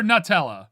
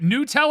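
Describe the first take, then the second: First: "Nutella" as "nuh-TELL-uh"; "Nutella" opening on a reduced "nuh"; "nuh" first syllable. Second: "Nutella" as "new-TELL-uh"; "Nutella" opening like the word "new"; "new" first syllable. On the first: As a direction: say "Nutella" with a short, neutral first vowel. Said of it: "I say it very fast". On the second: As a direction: say "Nutella" with a long "oo" at the start. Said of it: "not saying it like new". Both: Shown as a demonstration.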